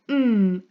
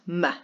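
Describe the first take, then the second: First: The m sound is held long without a vowel. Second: The m sound is followed by a short 'uh'. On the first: The speaker calls it right. "would be mm" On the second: The speaker calls it wrong. "and not m"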